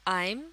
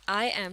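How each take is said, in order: First: It is said as one contracted word. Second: It is said as two separate words. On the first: "बन जाएगा" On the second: "आई एम से"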